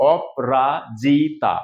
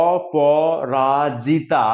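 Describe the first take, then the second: First: অপরাজিতা slowly as op-ra-ji-ta; four-syllable contraction. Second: অপরাজিতা slowly as o-po-ra-ji-ta; full five-syllable form. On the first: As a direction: split অপরাজিতা in four, closing the first on p. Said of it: "পাঁচটাকে চারটে করে". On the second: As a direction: sound every syllable of অপরাজিতা, keeping the o after p. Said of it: "যদি আমরা সঠিক উচ্চারণ করি". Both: Shown as a demonstration.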